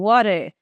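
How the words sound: The T is a quick flap; the final R sounds. "o americano fala assim"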